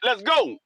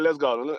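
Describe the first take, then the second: First: It is said in an urgent, excited tone. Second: It is said in a slow, weary tone. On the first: Leave right now, with no time for questions. "You could tell in the in the tone of my voice and in the in the excitement" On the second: The speaker is unhappy and wants to leave. "I don't even want to be here no more"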